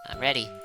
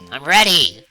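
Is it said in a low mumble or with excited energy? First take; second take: low mumble; excited energy. First: It is mumbled quietly with little energy. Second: It is shouted with lots of hyped energy.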